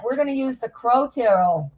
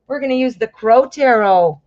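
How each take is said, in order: First: Said in the usual way. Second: Louder repeat with Crow stressed. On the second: Real, not acted. Reader announces the deck to viewers, Crow stressed. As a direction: lean on the word Crow.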